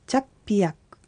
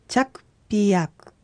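First: The word is said at normal speed. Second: The word is said slowly. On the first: "もう一度普通に発音しましょう" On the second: "一度ゆっくり発音してみましょう"

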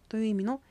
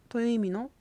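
Both takes have the same delivery.

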